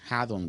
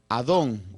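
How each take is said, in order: First: The word starts with an audible h sound. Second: The word starts with a vowel, no h sound. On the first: "si podemos ponerle eh, un sonido a la H" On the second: "la transliteración es Adón"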